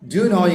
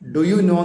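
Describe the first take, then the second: First: Do and you merge into one quick syllable. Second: Do and you are said as separate syllables. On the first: The speaker calls it right. "ഡു അതിന്റെ കൂടെ യൂമ്പാടെ ചേരുമ്പോൾ ഡ്യൂ" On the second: The speaker calls it wrong. "എന്നല്ല"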